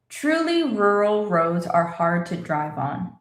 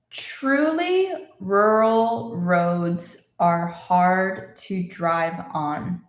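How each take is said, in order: First: It is spoken at a moderate, picked-up pace. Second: It is spoken very slowly and carefully. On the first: "A little faster" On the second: "let's say it again slowly"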